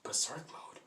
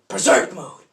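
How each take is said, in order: First: Hushed, questioning repeat; quiet confused question; puzzled echo. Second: Loud, high battle cry; sudden acted shout. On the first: Retold or imitated. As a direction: repeat it softly, baffled. Onlookers puzzled by Deku's shout. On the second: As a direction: call out the power-up like an anime hero. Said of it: "says out loud".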